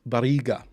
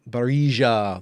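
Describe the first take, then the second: First: The name is said the Spanish way. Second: The name is said in a Danish-like way. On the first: The speaker calls it right. "It's Barriga" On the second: The speaker calls it wrong. "That that sounds something like uh, something like a Dane would do"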